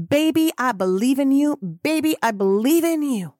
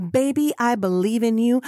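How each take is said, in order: First: Rising cheerleader. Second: Doting encouragement. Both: Real, not acted. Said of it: "[name] is here to say that to you".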